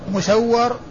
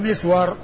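First: It begins with mu and doubles the w. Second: It begins with mi and has a single w. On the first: "هذان بهذه الصيغة الميم مضمومة والسين مفتوحة والواو مشددة" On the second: "مسور بالميم المكسورة والسين الساكنة والواو المفتوحة"

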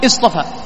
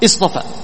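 First: It begins with the connecting hamza, as a statement. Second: The same.

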